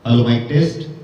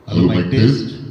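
First: The voice has reverb at its normal pitch. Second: The voice is processed to sound much deeper. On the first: "बिना parameter set किए से बोल के बताता हूँ" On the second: "आवाज काफी भारी हो चुकी है"

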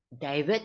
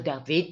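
First: The name is said with English pronunciation. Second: The name is said with Hebrew pronunciation.

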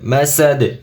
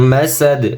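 The two takes are said the same way.

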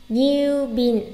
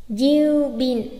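Both takes have the same delivery.

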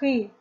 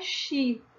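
First: The syllable begins with a throaty guttural sound. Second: The syllable begins with a sh sound. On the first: The speaker calls it right. "e sim ri, como em carro" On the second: The speaker calls it wrong. "a leitura não é Xi"

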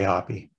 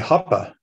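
First: The name is pronounced the American way. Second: The name is pronounced the German way. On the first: This is how the family says it at home. "So we say Hoppe" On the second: This is how people in Germany say it. "they say it differently over there. They say Hoppe"

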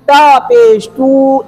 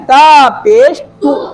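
First: The final vowel is stretched out long. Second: The final vowel is kept short and quick. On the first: The speaker calls it wrong. "आप ये नहीं पढ़ सके ... इतना नहीं खींच सकेंगे आप" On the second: The speaker calls it right. "इसकी लंबाई इतनी है"

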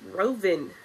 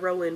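First: The middle consonant is a V sound. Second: The middle consonant is a W sound. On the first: The speaker calls it right. "but that's a V" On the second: The speaker calls it wrong. "not Rowan"

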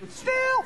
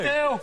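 First: It is said in a high-pitched voice. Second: It is said in a low-pitched voice. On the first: "Saying still in a high voice" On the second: "Saying still in a low voice"

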